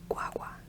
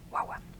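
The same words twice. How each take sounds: First: The word is said slowly, every sound spelled out. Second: The word is said very fast, sounds run together. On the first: The speaker calls it wrong. "we don't pronounce it that way. That's how it's spelled" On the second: The speaker calls it right. "That like super fast"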